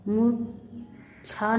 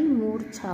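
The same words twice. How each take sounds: First: मूर्छा as "mu ... chha", split and slow; mispronounced. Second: Said in the usual way. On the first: Shown as a demonstration. Teacher showing students an error, मूर्छा mispronounced. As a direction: say मूर्छा without its r. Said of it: "नहीं होता". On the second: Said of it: "होता है".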